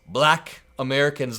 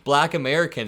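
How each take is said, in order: First: The word black is said with heavy emphasis. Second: The word black is said plainly, without extra weight. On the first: The speaker calls it wrong. "You don't have to go" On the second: The speaker calls it right.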